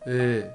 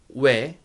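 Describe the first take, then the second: First: The vowel is one steady rounded sound. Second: The vowel glides from a w sound into e. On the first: This is how it was said long ago. "was a monophthong long time ago" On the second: This is how it is said today. "You can consider those three are we"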